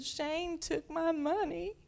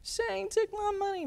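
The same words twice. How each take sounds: First: Put-on high, slow whining little girl; whiny toddler. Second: Put-on wailing toddler. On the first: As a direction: complain like a crying two-year-old. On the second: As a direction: cry it out like an upset little kid. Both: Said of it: "And she said".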